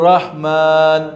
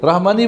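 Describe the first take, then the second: First: The word ends on the consonant n. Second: The word ends with an added i vowel. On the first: The speaker calls it right. "যেখানে থামবেন সুকুন দিয়ে থামতে হবে।" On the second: The speaker calls it wrong. "রহমানি বলে থামবেন, ভুল"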